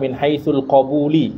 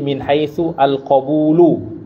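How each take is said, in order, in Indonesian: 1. Kata terakhir berakhir dengan vokal i. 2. Kata terakhir berakhir dengan vokal u. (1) "banyak orang yang menganggap itu sebagai mudhaf mudhaf ilaih ... enggak" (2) "kata yang setelah haitsu juga itu harus marfu"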